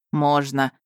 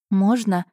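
First: Amused, lower-key permission. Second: Mildly pleading, eager request. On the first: Duke gives her the cup, amused. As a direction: grant it with understated amusement. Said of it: "рассмеялся Эйден". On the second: Heroine begs duke for the chocolate, pleading. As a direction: ask as if you badly want it. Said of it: "Я вскинула на герцога умоляющий взгляд". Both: A narrator's reading.

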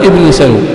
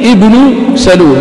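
First: ابن سلول with ابن said "ibni", genitive; wrong reading. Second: ابن سلول with ابن said "ibnu" and the alif kept; correct reading. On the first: Teacher showing the form not to say. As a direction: say "ibni salul" as the error. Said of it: "لا تقول". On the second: Teacher modelling the correct name. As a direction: say "ibnu salul", slow. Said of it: "فهذا هو النطق الصحيح". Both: Shown as a demonstration.

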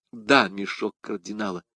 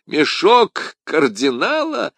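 First: Said in the usual way. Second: Slow, louder, higher laughing question. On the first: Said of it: "подтвердила госпожа Бонасье". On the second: A narrator's reading. D'Artagnan bursts out laughing at Madame Bonacieux, laughing. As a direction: laugh it out in disbelief. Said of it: "расхохотавшись".

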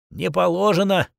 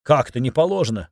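First: Put-on higher-pitched, mildly curt old woman; understated officious refusal; curt authoritative refusal. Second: Indignant question at usual pitch, falling at the end; understated protest; mild indignation. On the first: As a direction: cut off the request like an old hand. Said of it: "заправским тоном отрезала тётя Клава". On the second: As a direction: challenge it with a touch of outrage. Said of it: "возмутилась она". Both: A narrator's reading.

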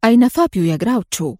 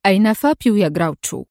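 First: Fast, firm cold demand; stern and cold. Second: Cold flat repeat of the demand; cold interruption. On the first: Adham demands Fabio from the Mafia boss, stern. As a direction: clip the question with cold authority. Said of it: "قال في صرامة وبرود". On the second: Adham interrupts the gloating boss, cold. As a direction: cut him off coldly. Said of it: "قاطعه أدهم في برود". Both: A narrator's reading.

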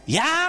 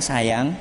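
First: Mock-angry call, pitched sharply up; high, drawn-out demo of a cross call; raised intonation. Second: Said in the usual way. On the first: Shown as a demonstration. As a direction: call a spouse as if cross, voice shooting up. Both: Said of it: "Tapi intonasinya dinaikkan".

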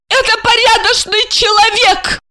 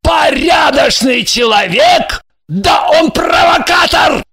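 First: High, proud, tipsy declaration; haughty drunk woman defending her guest; drunken pride. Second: Slow, loud scornful repeat; enraged husband sneering at the guest; furious mocking shout. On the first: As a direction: cut him off with tipsy dignity. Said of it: "с пьяной гордостью отрезала Ася". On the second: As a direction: throw her words back at her, yelling. Husband mocks her words, furious. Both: A narrator's reading.

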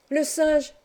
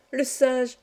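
First: Put-on high, bright child's call of surprise; a boy spotting the monkey, crying out high; excited cry. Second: Excited cry, echoed. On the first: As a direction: call out the monkey with sudden delight. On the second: Acted. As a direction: echo the cry, calming slightly. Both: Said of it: "s'écria Arthur".

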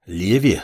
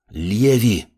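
First: Understated irritation, falling tone; irritated. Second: Mildly growled warning. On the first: Apprentice to pushy girlfriend, mildly irritated. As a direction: say the name with restrained annoyance. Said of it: "уже с раздражением произнёс подмастерье". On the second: Apprentice warning girlfriend off, mild growl. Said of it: "рыкнул маг". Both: A narrator's reading.

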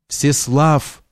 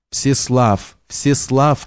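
First: The name Всеслав sounding back faintly from far away; echoing from afar; like an echo in the woods; distant echo. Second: A mildly voiced call for help; calling the name Всеслав into the forest, understated; narrated cry, lightly acted. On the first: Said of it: "повторял отголосок". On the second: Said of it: "кричала Надежда". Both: A narrator's reading.

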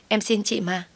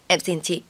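First: A higher, more desperate plea; higher begging. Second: Begging. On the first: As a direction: beg again, voice lifting in desperation. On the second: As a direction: beg her to stop. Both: Acted. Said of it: "van xin tôi rối rít".

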